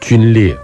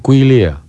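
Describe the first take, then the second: First: The first syllable is pronounced 'jun'. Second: The first syllable is pronounced 'gui'. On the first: This is the reading the speaker insists on. "我常常坚持要念军列" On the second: This is the reading most people use. "大家都念龟列"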